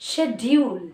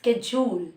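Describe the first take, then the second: First: It is said in a British accent. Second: It is said in an American accent. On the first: "and in the British, they use schedule" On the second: "In the American accent, they use schedule"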